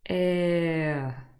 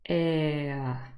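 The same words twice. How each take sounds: The two takes are said the same way.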